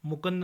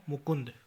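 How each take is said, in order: First: मुकुंद with a after k; mispronunciation. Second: Said in the usual way. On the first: Shown as a demonstration. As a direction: say mu-kand for मुकुंद. (मुकुंद को मुकंद बोलें) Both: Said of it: "नहीं".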